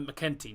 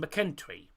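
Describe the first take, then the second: First: No r sound follows the t. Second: An r sound follows the t. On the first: The speaker calls it right. "McKenty, not McKentry" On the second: The speaker calls it wrong. "not McKentry. I keep saying McKentry"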